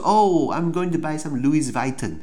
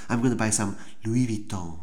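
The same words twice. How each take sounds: First: The s at the end of Louis is pronounced. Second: The s at the end of Louis is silent. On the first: The buyer is an amateur. The speaker calls it wrong. "你不要说" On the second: The buyer is knowledgeable. The speaker calls it right. "那个S 不发音"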